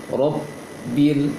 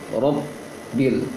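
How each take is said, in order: Both takes have the same delivery.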